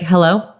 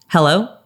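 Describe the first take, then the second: First: The hello is said in a flat, miserable tone. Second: The hello is said in a neutral tone. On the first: "I don't sound very excited to hear from you" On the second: "this is my neutral hello"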